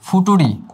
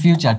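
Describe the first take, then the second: First: It is said with a 't' sound, like 'futuri'. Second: It is said with a 'ch' sound, like 'fyoocher'. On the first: It is a spelling-based form used to remember the word. "আগে সবাই মনে রাখার জন্য ফিউচারকে ফুটুরি বলতো" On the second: It is the real pronunciation of the word. "But ফিউচার তো ফিউচার"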